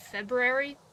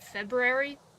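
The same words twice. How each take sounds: First: The middle 'oo' sound is almost dropped. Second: The same.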